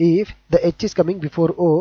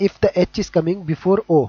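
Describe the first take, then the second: Both takes have the same delivery.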